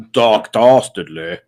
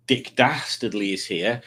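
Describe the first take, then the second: First: Booming villain voice. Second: Said in the usual way. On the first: Shown as a demonstration. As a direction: stretch out "Doc Dastardly" loud and slow. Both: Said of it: "or as I like to call him".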